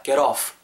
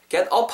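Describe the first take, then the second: First: "Get off" with an audible f at the end; "Get off", run together, finishing in friction; scraped final f. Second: "Get up" with a closed p at the end; "Get up", lips shut on the last sound; mispronounced final f. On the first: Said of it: "자연스럽게 긁어주셔야 된다". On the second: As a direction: end "Get up" on a p stop instead of an f. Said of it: "Get up 하면 안 돼요". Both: Shown as a demonstration.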